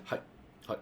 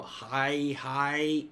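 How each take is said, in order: First: Short, separate "hi"s at an ordinary pitch; respectful listening. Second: Two long, raised "hi"s; frustrated repetition. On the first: Listener showing respect in Japanese, short attentive hi. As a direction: give a brief, attentive hi, pause, another. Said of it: "I'm listening, I'm showing respect". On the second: Showing disrespect in Japanese, frustrated drawn-out double hi. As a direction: drag out each hi as if fed up. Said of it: "you're frustrated". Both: Shown as a demonstration.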